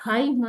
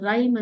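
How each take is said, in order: First: "rhyme" misread as "hime", starting on H; H sounded. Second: "rhyme" said as "rime", starting on R; silent H. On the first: Teacher showing pupils the misreading, "rhyme" with an audible H. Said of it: "rhyme ಅಂತ ಓದೋದಿಲ್ಲ". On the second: Teacher showing pupils how it is read, "rhyme" with H silent. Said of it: "rhyme ಅಂತ ಓದ್ತೀವಿ". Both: Shown as a demonstration.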